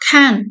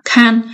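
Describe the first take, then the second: First: The syllable is said without a high level tone. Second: The syllable is said with a high level tone. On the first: It means to look or to see. "Bình thường thì chữ này chúng ta đọc là can" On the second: It means to guard or to watch over. "Đọc là thanh một là can"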